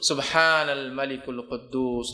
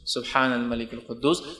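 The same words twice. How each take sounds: First: The last word is stretched long. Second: The last word is said short.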